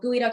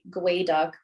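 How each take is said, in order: First: The first syllable sounds like 'gooey'. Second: The first syllable sounds like 'gway'. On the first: This is the common way people say it. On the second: This is the name in the native language.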